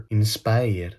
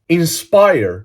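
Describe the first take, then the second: First: Put-on INSPIRE lower and softer in a Greek accent; mock Greek accent. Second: INSPIRE in a fluent English accent; authentic English accent. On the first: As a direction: pronounce "Inspire" with plain Greek sounds. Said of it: "με ελληνική προφορά". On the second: Shown as a demonstration. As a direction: say "Inspire" like a native English speaker. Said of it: "μιλάω με αυτή την προφορά".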